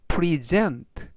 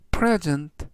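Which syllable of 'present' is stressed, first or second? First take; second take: second; first. First: The stress is on the second syllable. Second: The stress is on the first syllable. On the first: It is the verb meaning to present or show. "뒤에 있는 E에 강세를 붙이면 present, 동사가 돼서" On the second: It is the noun meaning a gift. "이때 강세는 앞부분에 있는 알파벳 E의 강세가 있고요"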